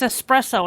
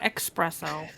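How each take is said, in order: First: It begins with an es sound. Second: It begins with an eks sound. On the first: The speaker calls it right. "There's no X. It's espresso" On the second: The speaker calls it wrong. "It's not espresso"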